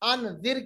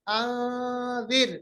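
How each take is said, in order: First: The n is fully closed with tongue on palate. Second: The n is hidden as a light nasal hum. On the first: The speaker calls it wrong. "अनजिर के बजाय" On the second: The speaker calls it right. "अन नहीं पढ़ना"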